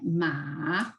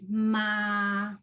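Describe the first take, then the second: First: The pitch rises from middle to high. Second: The pitch stays high and level. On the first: "With the second tone, it will sound like ma" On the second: "the first one is ma"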